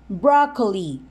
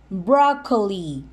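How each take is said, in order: No difference in how they are said.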